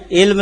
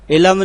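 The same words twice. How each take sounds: First: علم said ilm, l and m joined with no vowel; علم as one closed syllable, ilm; clipped علم with no extra vowel; correct pronunciation. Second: علم said ilam, an extra a before m; علم split into two syllables, i-lam; mispronounced علم with an added vowel; common wrong pronunciation. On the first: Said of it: "علم لفظ ہے". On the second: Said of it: "علم نہیں ہے". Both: Shown as a demonstration.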